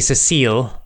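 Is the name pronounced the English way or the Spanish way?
English. The name is said with an English pronunciation. "But then the English would be"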